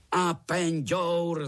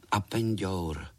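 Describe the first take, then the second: First: High, slow, loud joint roar; roared in chorus. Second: Said in the usual way. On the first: A narrator's reading. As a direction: bellow the answer slowly, all together. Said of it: "zařvali všichni strýčci sborem".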